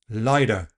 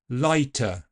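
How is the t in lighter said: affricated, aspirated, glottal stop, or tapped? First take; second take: tapped; aspirated. First: The t is a quick tap like d. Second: The t is released with a puff of air. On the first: It sounds American or Australian. "Tapping the t ... like a very fast d" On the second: It sounds like standard English. "let's start by aspirating it"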